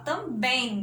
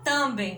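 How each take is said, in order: First: The stress is on the last syllable. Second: The stress is on the first syllable. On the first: The speaker calls it right. "a gente fala também, né? E o bem é que é o mais forte aqui" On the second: The speaker calls it wrong. "a gente não fala também"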